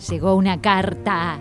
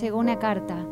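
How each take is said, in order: First: It is said in a sinister, evil tone. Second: It is said in a sad, downcast tone. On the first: "en tono malvado" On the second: "Lo tenés que decir en formato triste"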